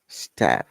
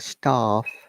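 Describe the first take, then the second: First: It is said in an American accent. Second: It is said in a British accent. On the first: "And American says staff" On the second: "In the British English we say staff"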